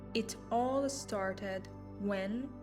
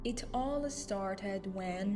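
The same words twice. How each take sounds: First: It is spoken slowly and deliberately. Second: It is spoken at a faster, natural pace. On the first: "Speak slowly, be the storyteller" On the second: "the natural flow"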